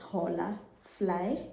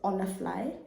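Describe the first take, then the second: First: It begins with an audible h sound. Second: It begins with a vowel, no h sound. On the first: This is how it is said in South Africa. "if you're in South Africa, it's Hola Fly" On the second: This is the Spanish-style pronunciation. "the TikTokers pronounce it as Olafly"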